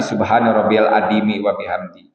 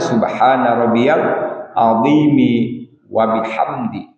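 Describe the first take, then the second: First: The middle consonant of 'azimi' sounds like d. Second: The middle consonant of 'azimi' sounds like th. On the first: The speaker calls it wrong. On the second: The speaker calls it right.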